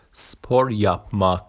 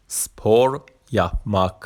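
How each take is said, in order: Both takes have the same delivery.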